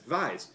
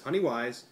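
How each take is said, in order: First: The word starts with a V sound. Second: The word starts with a W sound. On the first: "if you're German, you would pronounce as Weiss" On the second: "I'm going to pronounce it as Honeyweiss"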